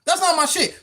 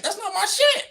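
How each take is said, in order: First: "not" hit hard in "That's not my shit"; stress on NOT. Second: Pitched way up, rising on "shit"; "that's not my shit" flung up high, ending in a rise; high mocking take. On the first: Acted. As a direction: lean on "not", then drop the rest. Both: Repeating the line two ways.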